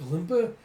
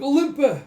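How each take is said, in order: First: Louder rising call of her name; worried question. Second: Very high, very loud cry of her name; anguished scream. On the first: Fighter calling to the stricken doll, rising and worried. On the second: Fighter screaming as she falls from the platform, high and loud. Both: Acted.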